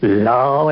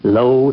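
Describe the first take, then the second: First: The word is said with an 'aw' vowel. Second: The word is said with an 'oh' vowel. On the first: It is the Appalachian dialect form. "the Appalachian dialectical form" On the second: It is the old written form. "what you read in the Bible as L O"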